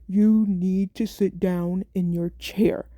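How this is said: It is said in a firmer, stern tone. "change my tone of voice and be like"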